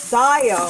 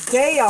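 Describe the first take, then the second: First: Daiya with "die" up front; Daiya as DYE-uh. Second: Daiya with "day" up front. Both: Real, not acted. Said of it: "I don't know how to say it".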